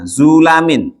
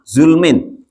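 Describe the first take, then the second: First: The first vowel is u, with a after l. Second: The first vowel is u, with no second vowel. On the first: "Ma fathil lami beserta dibaca fathah lamnya" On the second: "Wa dhammuha dan boleh dibaca dhamma"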